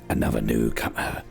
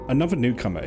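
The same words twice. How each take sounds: First: It is said in a put-on Dunmer voice. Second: It is said in the speaker's normal voice.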